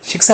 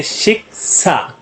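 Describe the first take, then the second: First: Said in the usual way. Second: शिक्षा split into two drawn-out syllables, shik, saa. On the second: Shown as a demonstration. Teacher shows learners a two-syllable word, syllable by syllable. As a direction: break शिक्षा in two with a small gap. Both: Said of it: "दो syllable से".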